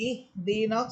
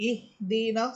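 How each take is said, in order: No difference in how they are said.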